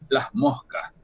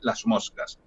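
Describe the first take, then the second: First: The s of 'las' is aspirated like an h. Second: The s of 'las' is fully pronounced. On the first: "esa S se, se aspira" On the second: "una S con otra articulación"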